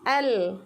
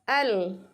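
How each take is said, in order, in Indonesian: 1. Vokalnya tipis dengan bibir melebar. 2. Vokalnya tipis dengan bibir melebar.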